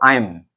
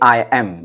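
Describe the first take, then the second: First: The words are run together quickly into one. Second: Two separate full words are said slowly.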